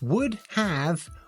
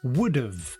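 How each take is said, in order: First: Have is said as a full separate word. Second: Have is reduced and joined to would.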